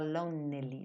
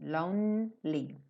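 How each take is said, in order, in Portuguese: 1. Um som de vogal extra é pronunciado no meio. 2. Nenhum som de vogal extra é pronunciado no meio.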